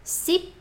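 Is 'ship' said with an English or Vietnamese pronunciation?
Vietnamese. It is said with a Vietnamese pronunciation. The speaker calls it right. "It's ship"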